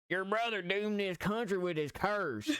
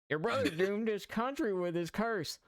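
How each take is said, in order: First: It is said in the speaker's ordinary voice. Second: It is said in a put-on character voice. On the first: The speaker calls it wrong. "I didn't do the Harrington voice" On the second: The speaker calls it right. "let me do that again"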